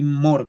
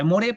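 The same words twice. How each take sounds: First: MORE as one syllable, "mor"; correct English pronunciation. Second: MORE said as Spanish "mo-re"; read as spelled. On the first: Teacher models for students, MORE pronounced "mor" with silent E. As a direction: drop the final E in MORE, end on the R. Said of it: "se pronuncia así more". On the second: Teacher reads the spelling to students, MORE with Spanish final E. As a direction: sound the final E in MORE, two syllables. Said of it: "Se escribiría more". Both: Shown as a demonstration.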